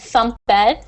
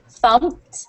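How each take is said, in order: First: The ending is an extra 'ed' syllable. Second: The ending is a plain T sound. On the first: The speaker calls it wrong. "You said thumped" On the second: The speaker calls it right. "with a T sound at the end"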